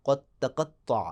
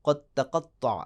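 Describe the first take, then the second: The two takes are said the same way.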